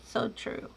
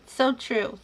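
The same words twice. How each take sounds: First: Soft breathy aside, no voice; whispered echo. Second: Said in the usual way. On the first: Real, not acted. Host whispers agreement to a viewer's comment.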